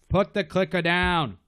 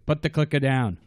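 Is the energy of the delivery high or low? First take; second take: high; low. First: It is said with full, forceful character energy. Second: It is said with restrained, half-hearted energy. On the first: The actor is fully committing to the character. "If it was real Frank, it'd be like" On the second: The actor is holding back from his full character. "I'll do 60% Frank"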